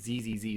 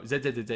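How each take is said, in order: First: The name is said the American English way. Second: The name is said the British English way. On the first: "is what the Americans say" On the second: "is what the English say"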